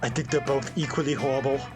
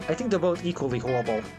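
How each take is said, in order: First: It is said in a put-on harsh British accent. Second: It is said in the speaker's plain voice.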